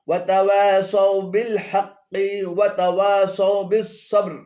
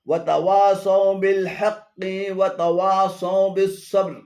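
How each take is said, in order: Both takes have the same delivery.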